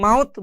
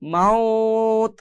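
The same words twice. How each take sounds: First: The vowel is short, with no lengthening. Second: The vowel is drawn out before the stop. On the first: The speaker calls it wrong. "শুধুমাত্র মাউত বলে থেমে গেলে হবে না" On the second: The speaker calls it right. "টেনে পড়তে হবে মাউত, মাউত, এভাবে টানতে হবে এক আলিফ"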